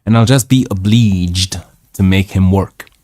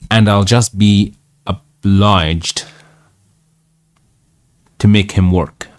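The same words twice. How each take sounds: First: "obliged" said o-BLEEJD, with an ee vowel. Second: "obliged" said with an eye sound, o-BLYEJD; obliged with long I. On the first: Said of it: "It's pronounced oblige". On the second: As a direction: say "obliged" to rhyme its vowel with "eye". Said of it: "I'm not sure it's pronounced obliged". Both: Real, not acted.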